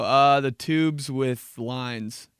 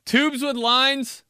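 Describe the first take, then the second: First: Slow, hesitant guess; unsure kid. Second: High, loud, slow disbelief; mocking his own clueless answer; incredulous. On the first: Retold or imitated. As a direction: drag it out, clueless. Kid fumbling pasta name. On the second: Real, not acted. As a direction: repeat it in disbelief.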